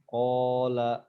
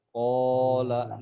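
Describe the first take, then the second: The two takes are said the same way.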